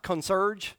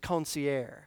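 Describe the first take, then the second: First: The word is said as it is spelled. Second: The word is said in a French style. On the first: The speaker calls it wrong. "It looks like concierge" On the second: The speaker calls it right. "but I think it's concierge"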